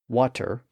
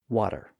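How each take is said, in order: First: The middle consonant is a clear T. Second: The middle consonant is a quick D-like tap.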